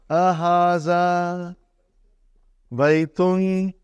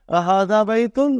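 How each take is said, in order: First: It is said with a flat statement tone. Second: It is said with a questioning tone.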